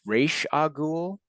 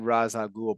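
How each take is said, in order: First: The first word sounds like 'raysh'. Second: The first word sounds like 'rahs'. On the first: This is presented as the proper form. The speaker calls it right. "but it's" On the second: This is how the speaker has always said it. The speaker calls it wrong. "I've always said"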